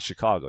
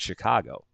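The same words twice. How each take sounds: First: It is said without a Chicago accent. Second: It is said with a Chicago accent.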